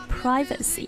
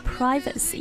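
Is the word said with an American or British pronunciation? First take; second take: American; American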